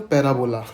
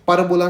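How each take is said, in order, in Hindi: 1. पहले अक्षर में 'pair' वाला स्वर है। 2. पहले अक्षर में छोटा 'pa' स्वर है। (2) "परबोला नहीं"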